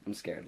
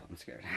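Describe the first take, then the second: First: Said in the usual way. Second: Sighed, voiceless whisper of fear; acted scared. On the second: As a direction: whisper it after a nervous breath out. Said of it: "I'm scared. Like, I'm like".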